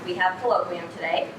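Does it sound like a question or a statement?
statement. It is said with statement intonation. It asserts a fact. "a statement"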